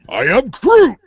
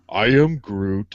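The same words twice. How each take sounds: First: It is said in an angry, threatening tone. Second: It is said in a sad tone. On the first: The speaker is threatening violence. "It's like I'm going to rip your arms out and feed them to chipmunks" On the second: The speaker is sad. "That's sad"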